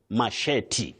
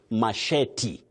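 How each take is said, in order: The two takes are said the same way.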